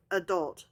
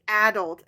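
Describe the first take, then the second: First: "adult" as uh-DULT, stress on the second syllable. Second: "adult" as AD-ult, stress on the first syllable. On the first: Host showing the preferred pronunciation, "adult" as uh-DULT. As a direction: reduce the first vowel of "adult", hit DULT. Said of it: "instead of adult". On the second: Host showing a pronunciation that bugs her, "adult" as AD-ult. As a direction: say "adult" with a stressed short A up front. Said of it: "When people say adult instead of adult". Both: Shown as a demonstration.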